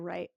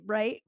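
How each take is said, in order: First: The voice falls at the end of the word. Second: The voice rises at the end of the word. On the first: It is a verbal habit, not a real question. "It's really more like a right with a period" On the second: It asks the listener for agreement. "Question mark"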